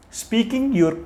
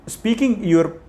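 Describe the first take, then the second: No difference in how they are said.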